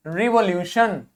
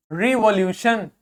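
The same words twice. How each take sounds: The two takes are said the same way.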